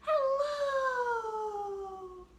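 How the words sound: It is said in a very high pitch. "as high as we can"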